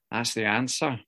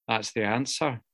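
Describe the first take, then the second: No difference in how they are said.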